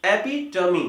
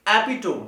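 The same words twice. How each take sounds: First: एपिटमी as e-PI-tuh-mee, four syllables; correct pronunciation. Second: एपिटोम as EPI-tome, silent final e; common mispronunciation. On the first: Teacher correcting students, एपिटमी ending in "tuh-mee". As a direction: sound the final "mee" in एपिटमी. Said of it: "इसका correct pronunciation होता है". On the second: Teacher imitating students' error, एपिटोम rhyming with home. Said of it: "एपिटोम नहीं होता". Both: Shown as a demonstration.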